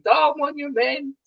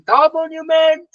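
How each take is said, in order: First: High-pitched yell held back in volume; mock waking scream. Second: Mock dream shout. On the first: Runner waking at night from a race dream, mock screaming. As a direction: wail it high without really screaming. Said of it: "I wake up at night screaming". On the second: Runner retelling his nightmare about the race, mock shouting. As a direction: cry it out high, like calling from a dream. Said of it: "I still dream a dream shouting".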